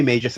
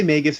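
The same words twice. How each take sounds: First: Magus said MAY-jus; soft-g Magus. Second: Magus said MAY-gus; hard-g Magus. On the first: Host assigning Vince's version, Magus as MAY-jus. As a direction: say Magus with a J sound. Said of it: "Vince, you say Magus". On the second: Host assigning versions, Magus as MAY-gus. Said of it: "you say Magus". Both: Shown as a demonstration.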